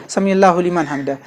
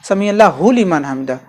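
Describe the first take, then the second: The two takes are said the same way.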